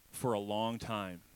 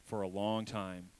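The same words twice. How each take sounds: First: Slow emphasis. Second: Slowly drawn out. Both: Shown as a demonstration. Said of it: "Everybody say".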